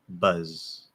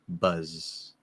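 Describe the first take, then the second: The two takes are said the same way.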